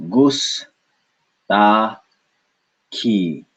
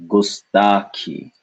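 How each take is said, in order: First: "Gus, ta, ki" with long gaps between syllables. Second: Said in the usual way. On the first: Shown as a demonstration. Teacher splitting for learners, "Gus, ta, ki" in separate beats.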